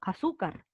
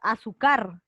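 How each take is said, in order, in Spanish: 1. La fuerza de voz está en la penúltima sílaba. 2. La fuerza de voz está en la última sílaba. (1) "tú dices azúcar" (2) "Sería aguda si la fuerza de voz estuviera en car. Pero tú no dices azúcar"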